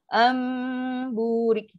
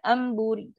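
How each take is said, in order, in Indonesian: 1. Dengung sengau ditahan untuk waktu yang lama. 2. Dibaca cepat, dengung sengaunya dipotong pendek. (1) "itu itulah tempoh lama dia" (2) "Kalau kita baca cepat"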